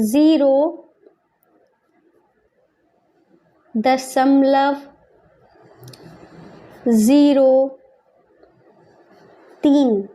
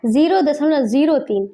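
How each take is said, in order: First: Word by word with long pauses; slow dictation. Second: Said in the usual way. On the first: Shown as a demonstration. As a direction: draw out each word as if writing it. Dictating while writing in words.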